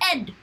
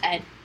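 First: It is said in the characters' put-on accent. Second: It is said plainly in the speaker's usual voice.

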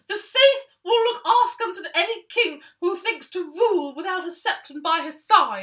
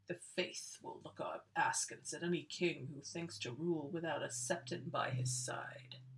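First: It is said in a boyish Draco Malfoy voice. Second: It is said in a sinister put-on voice.

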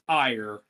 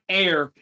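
First: The name rhymes with the word 'fire'. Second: The name rhymes with the word 'air'. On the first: The speaker calls it right. "Apparently, it's" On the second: The speaker calls it wrong. "we've been mispronouncing her name the entire time"

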